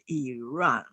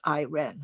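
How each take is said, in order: First: It is said the way most other countries say it. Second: It is said the way Americans usually say it. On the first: "many countries would pronounce it Iran" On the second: "America would, in our country, would pronounce it Iran"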